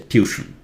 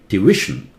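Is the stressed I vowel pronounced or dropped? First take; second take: dropped; pronounced. First: The stressed I vowel is dropped. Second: The stressed I vowel is clearly pronounced. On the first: The speaker calls it wrong. "Do not say tuition. Tuition is wrong" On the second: The speaker calls it right. "There's an I here. It's pronounced"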